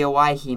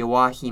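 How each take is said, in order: First: "Owyhee" as oh-WHY-hee; standard Owyhee pronunciation. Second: "Owyhee" as oh-WAH-hee; old-timer pronunciation. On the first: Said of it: "or the Owyhee Mountains". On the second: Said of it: "if you're an old-timer". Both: Shown as a demonstration.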